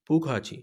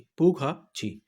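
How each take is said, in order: First: Said in the usual way. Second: "پو کھا چھی" broken before the last syllable; split-syllable drill. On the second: Shown as a demonstration. Teacher repeats it for learners to practice, split-syllable drill. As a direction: pause after "پو کھا", then a separate "چھی".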